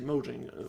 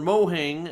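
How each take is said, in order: First: The second syllable starts with a j sound. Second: The second syllable starts with an h sound. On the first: This is how the speaker says it. "but I say Mojang" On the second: Someone else says it this way. "as they kept Phil Spencer kept saying"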